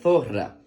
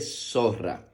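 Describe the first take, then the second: First: The first sound is a th sound. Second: The first sound is an s sound. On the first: "también puede pronunciarse como zo" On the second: "por lo general la utilizamos como so"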